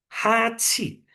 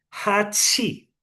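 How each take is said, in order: The two takes are said the same way.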